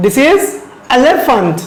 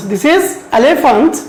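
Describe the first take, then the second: First: Said in the usual way. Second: This is elephant stretched out word by word; slow model reading. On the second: Shown as a demonstration. Teacher modelling the word elephant slowly for students. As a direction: drag each syllable of elephant for pupils to copy. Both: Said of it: "can you pronounce it?".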